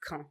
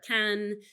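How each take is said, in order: First: Said the French way, as locals say it. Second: Said the English way, sounding like 'can'. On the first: The speaker calls it right. "the French pronunciation is Caen" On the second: The speaker calls it wrong. "or can"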